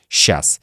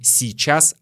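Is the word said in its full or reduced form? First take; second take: reduced; full. First: The word is shortened, with sounds dropped. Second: Every sound of the word is pronounced carefully. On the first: The speaker calls it right. "а сейчас" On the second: The speaker calls it wrong. "Не сейчас"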